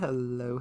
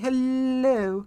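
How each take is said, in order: First: It is said in the speaker's own voice. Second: It is said in an imitation of Pim.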